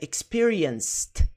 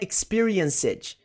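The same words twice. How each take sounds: First: The ending is a bare t sound. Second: The ending is pronounced as an extra syllable. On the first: The speaker calls it right. "É só um T no final" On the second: The speaker calls it wrong. "não é experienced, não"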